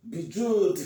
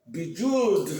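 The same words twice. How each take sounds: The two takes are said the same way.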